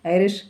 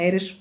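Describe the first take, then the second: First: A name called out from behind, rising; calling from behind. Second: Calling the name again, lightly; repeated call. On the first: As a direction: call her name across the platform. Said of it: "പിറകിൽ നിന്നൊരു വിളി". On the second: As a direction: call her once more, less pushed. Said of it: "വീണ്ടും ആ വിളി". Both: A narrator's reading.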